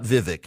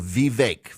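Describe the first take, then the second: First: The last syllable does not rhyme with cake. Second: The last syllable rhymes with cake. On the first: The speaker calls it wrong. "it's not Vivek" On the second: The speaker calls it right. "it rhymes with cake, so Vivek"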